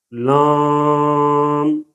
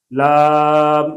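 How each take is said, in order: First: لام held very long with a nasal aa; nasalized vowel. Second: Said in the usual way. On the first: Shown as a demonstration. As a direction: drone لام through the nose. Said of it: "ایک دفعہ غلط پڑھیں گے". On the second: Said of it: "ایک دفعہ صحیح پڑھیں گے".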